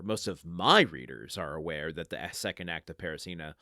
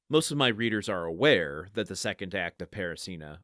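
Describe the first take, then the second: First: Strong emphasis on "my"; stress on MY. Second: "aware" lifted above the other words; emphasis falls on "aware"; stress on aware. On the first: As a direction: hit the word "my" hard, then let the rest drop. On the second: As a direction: lean on "aware", the rest even. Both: Shown as a demonstration. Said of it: "where do you put the emphasis in the sentence?".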